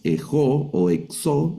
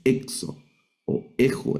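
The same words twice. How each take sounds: First: "ejo o exo" wrongly stressed on the last O; stress on final syllable. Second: "exo o ejo" stressed on the opening E; stress on first syllable. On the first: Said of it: "El acento nos va a guiar a la pronunciación". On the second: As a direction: punch the first E of "exo" and "ejo", leaving the O unstressed. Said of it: "el acento está en la primera letra". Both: Shown as a demonstration.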